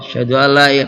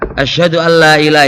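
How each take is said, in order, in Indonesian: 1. Diucapkan dengan pelan, suara rendah. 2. Diucapkan dengan keras, suara meninggi. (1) "pelan sih" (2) "itu keras"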